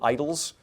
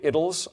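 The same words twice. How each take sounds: First: The word has an American pronunciation. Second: The word has a British pronunciation.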